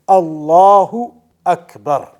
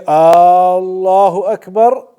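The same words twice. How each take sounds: First: Neither opening vowel is lengthened. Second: The first vowel of Allahu is lengthened. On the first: It states that Allah is the greatest. The speaker calls it right. "pronouncing it properly" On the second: It asks whether Allah is the greatest. The speaker calls it wrong. "By extending the alif at the beginning"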